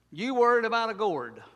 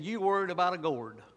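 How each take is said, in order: First: Louder and higher, hammering the rebuke; emphatic repeat. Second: Said in the usual way. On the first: Shown as a demonstration. Preacher driving God's rebuke to Jonah home, loud. Repeating line with rising intensity.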